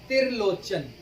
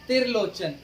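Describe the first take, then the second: Both takes have the same delivery.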